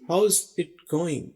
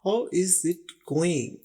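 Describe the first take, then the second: First: How and is merge into one syllable, hows. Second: How and is are said as separate words.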